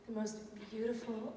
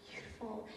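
First: Said in the usual way. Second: "beautiful" repeated much softer, almost to herself; softer echo. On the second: Real, not acted. Teacher looking at her students, soft tender echo. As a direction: let "beautiful" fall away quietly, moved.

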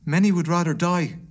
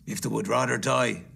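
First: Raised-pitch earnest protest; pleading gentleman. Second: Lowered, unmoved reply; callous miser, pitched down; cold Scrooge. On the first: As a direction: appeal on behalf of the poor, voice lifted. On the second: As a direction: throw the plea back coldly. Scrooge coldly answers gentleman. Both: Acted.

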